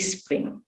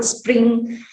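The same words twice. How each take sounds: First: "spring" with an i in front, is-pring; vowel before cluster. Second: Said in the usual way. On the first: Shown as a demonstration. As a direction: start "spring" on a short i. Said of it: "they insert again this I". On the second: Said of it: "they pronounce it as".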